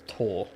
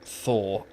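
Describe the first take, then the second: First: The name starts with a plain t sound. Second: The name starts with a th sound. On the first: "in Norway you don't th it, it's Tor" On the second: "it's not pronounced Thor"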